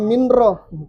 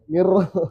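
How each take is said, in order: First: The n is pronounced clearly before the r. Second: The n merges fully into a doubled r. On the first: The speaker calls it wrong. "Jangan minro" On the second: The speaker calls it right.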